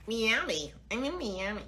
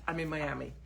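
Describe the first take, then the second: First: Lightly put-on American Miami; American accent. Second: Said in the usual way. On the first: Shown as a demonstration. Vlogger mimicking how locals say Miami, in an American accent.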